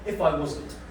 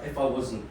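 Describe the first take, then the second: First: The T sounds in wasn't are pronounced. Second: The T sounds in wasn't are dropped. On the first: This is careful speech for making a good impression. "if I go in for a job interview or I'm trying to impress someone" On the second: This is casual everyday London speech. "I do it as well because I'm a Londoner. ... we lose the T's"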